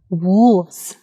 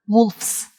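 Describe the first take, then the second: First: "Wolves" with a voiced V before the final S. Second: "wolves" with a voiceless F before S; wolf with F-S. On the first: Teacher modelling the plural of wolf, "Wolves" said with V. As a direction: draw out "Wolves" with a buzzing V, not F. Wrong and right plural contrasted. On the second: Teacher showing the wrong plural of wolf, "wolves" said with F-S. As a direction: say "wolves" ending in hissed F-S, as "wolfs". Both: Shown as a demonstration.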